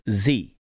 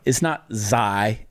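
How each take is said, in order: First: It is said the Greek way. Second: It is said the common fraternity way. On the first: The speaker calls it right. "it's z" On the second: The speaker calls it wrong. "It's not xi"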